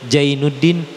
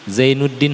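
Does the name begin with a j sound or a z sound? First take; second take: j sound; z sound. First: The name begins with a j sound. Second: The name begins with a z sound. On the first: "Z jadi Jim" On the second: "orang Sunda susah baca Z"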